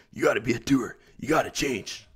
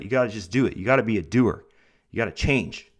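First: Lightly voiced Tony Robbins, punchy coach push on gotta; a hint of a hyped motivational guru, leaning on gotta; Tony Robbins impression. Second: Motivational speaker. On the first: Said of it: "That was a pretty good Tony Robbins voice". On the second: Shown as a demonstration. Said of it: "I sound like, like Tony Robbins or something".

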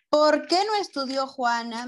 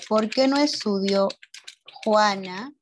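First: Said in the usual way. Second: Slow dictation. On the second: Shown as a demonstration. Teacher repeats the question for pupils, in dictation pieces. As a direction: question broken up with a pause before Juana.

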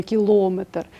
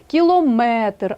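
First: КілОметр with ЛО stressed, quicker; wrong stress on ЛО. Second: КіломЕтр, slow with МЕ raised and drawn out; stress on МЕТР. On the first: Teacher citing the mistake to avoid, кілометр stressed on ЛО. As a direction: hit ЛО in кілометр, leaving МЕТР weak. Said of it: "а не кілометр". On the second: Teacher showing correct stress for units, кілометр stressed on МЕТР. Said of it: "останньому складі". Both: Shown as a demonstration.

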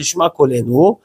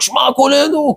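First: Said in the usual way. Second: High mock yell, no real volume; imitated crying out. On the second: Yeshiva students all start the prayer together, imitated high cry. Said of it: "כל הבחורים שם התחילו לשעוק".

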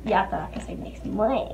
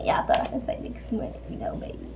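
First: Said in the usual way. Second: Whispered teasing aside; breathy playful whisper. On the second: Real, not acted. Whispered repeat of tease.

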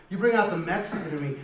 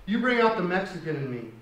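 The two takes are said the same way.

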